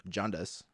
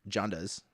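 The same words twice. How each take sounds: No difference in how they are said.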